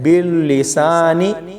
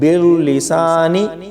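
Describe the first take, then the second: No difference in how they are said.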